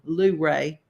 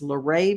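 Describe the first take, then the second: First: It is said the local way, like Luverne. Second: It is said the standard, non-local way. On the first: "like we say it back home" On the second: "I don't know if that's Luray"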